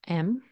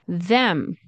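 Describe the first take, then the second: First: The word is reduced to just 'em. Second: The word is said in full with th.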